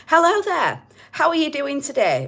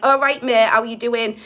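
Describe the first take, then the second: First: Higher, prim telephone-voice greeting; posh telephone voice. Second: Loud, matey Hull council-estate greeting; broad Hull estate accent. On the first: Doing his ego as a prim telephone caller. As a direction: put on your best polite phone voice. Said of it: "My ego's my telephone voice". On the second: Doing his higher self as a Hull estate local. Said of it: "The voice of my higher self sounds like". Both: Retold or imitated.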